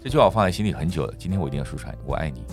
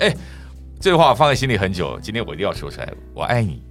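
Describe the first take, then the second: First: It sounds calm, rational, like a negotiation. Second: It sounds casual and matey, like a buddy.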